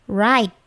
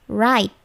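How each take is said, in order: Both takes have the same delivery.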